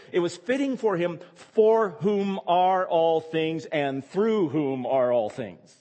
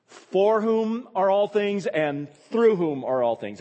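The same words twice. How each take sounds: First: Slow, weighty reading of the phrase; quoted phrase stressed. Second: Slow, raised, louder restatement; slow it down, weight on through; each whom and through pressed, for whom are all things drawn out; stressed repeat. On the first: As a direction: lean on each for and through. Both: Shown as a demonstration. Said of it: "Do you see the phrase?".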